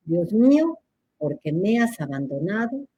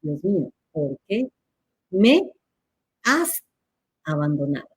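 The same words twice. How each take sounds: First: "me has" run together as one word; "por qué" and "me has" each fused; read as misspelt. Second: "qué", "me", "has" set apart by pauses, rising; words separated. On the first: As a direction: read "¿por qué me has abandonado?" joined up, without questioning stress. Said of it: "fíjense cómo está escrito". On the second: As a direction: spell out "¿por qué me has abandonado?" word by word. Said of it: "separado con la tilde". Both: Shown as a demonstration.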